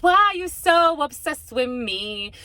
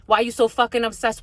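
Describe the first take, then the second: First: Drawn out, slow and pointed; slow emphatic repeat. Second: Said in the usual way. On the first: Shown as a demonstration. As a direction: spell each word out slowly, demanding an answer.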